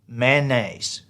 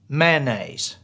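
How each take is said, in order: The two takes are said the same way.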